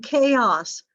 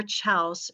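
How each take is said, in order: First: Said in the usual way. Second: Playful spelling pronunciation of "chaos", ch as in chair; joking mispronunciation. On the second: Shown as a demonstration. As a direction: say "chaos" as one syllable starting like "chow". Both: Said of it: "if you like that better".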